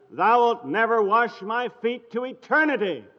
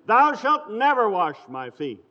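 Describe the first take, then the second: First: Higher and louder, leaning on "never" and "eternity"; emphatic declaration. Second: Said in the usual way. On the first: Shown as a demonstration. Peter flatly refusing Jesus forever, emphatic. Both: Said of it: "original idiom".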